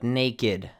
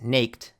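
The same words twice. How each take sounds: First: The word ends in an extra id syllable. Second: The word ends in a plain t sound. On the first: The speaker calls it right. "but naked" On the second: The speaker calls it wrong. "So naked is not pronounced naked"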